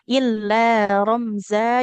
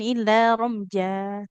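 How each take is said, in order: First: The middle consonant is a z sound. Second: The middle consonant is a j sound. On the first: The speaker calls it right. "Ini huruf Z ya... Seperti Z" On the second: The speaker calls it wrong. "Jadi bukan"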